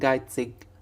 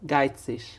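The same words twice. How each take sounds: First: The ending is a hard 'ig' sound. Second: The ending is a soft 'ish' sound. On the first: "اج" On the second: "ايش"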